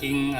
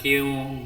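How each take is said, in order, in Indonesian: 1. Bunyi n diucapkan seperti bunyi ng. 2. Bunyi n dihilangkan dan menyatu dengan w. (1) "bukan king atau apalah" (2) "bukan kiu"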